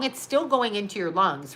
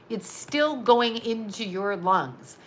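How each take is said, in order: First: Said in the usual way. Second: Slowed right down, every word spaced out; slow, deliberate repeat. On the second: Shown as a demonstration. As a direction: drive it home slowly.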